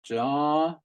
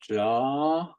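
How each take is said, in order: First: The long vowel is said on a high pitch. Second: The same.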